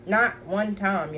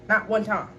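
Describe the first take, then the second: First: "Not one time" at half speed, each word separate; emphatic repeat. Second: Said in the usual way. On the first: Real, not acted.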